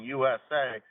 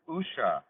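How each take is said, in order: First: It is spoken as three separate letters. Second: It is spoken as a single word. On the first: "instead of saying U S A" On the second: "like pronouncing U S A as a as you know as a word instead of the initials"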